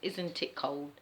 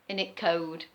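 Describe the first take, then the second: First: It is said in full standard pronunciation. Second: It is said in a reduced local dialect form.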